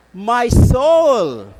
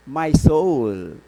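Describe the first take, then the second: First: High, ringing cry of praise; loud proclamation. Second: Said in the usual way. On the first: Acted. Priest proclaiming Mary's Magnificat to the congregation, loud and high.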